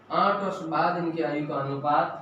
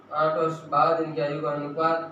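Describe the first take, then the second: No difference in how they are said.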